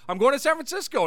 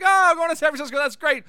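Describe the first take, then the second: First: Said in the usual way. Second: Higher, louder mimicked delight; hammed-up cheery "Oh, I'm going"; mock relieved reaction. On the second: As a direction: echo the news with amused relief. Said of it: "everyone starts laughing".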